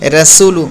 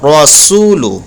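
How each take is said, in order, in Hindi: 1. r की आवाज़ हल्की और पतली है। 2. r की आवाज़ भारी और मोटी है। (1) "हम ऐसे नहीं पढ़ेंगे" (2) "रा को मोटा पढ़ते हैं"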